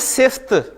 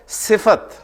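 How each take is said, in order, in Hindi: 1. f और t के बीच कोई स्वर नहीं; एक अक्षर। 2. f के बाद एक छोटा a आता है; दो अक्षर। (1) "उर्दू में बोलते हैं सिफ्त" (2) "अरबी में वो है सिफत। सिफत यानी फा पे जबर बोलनी है।"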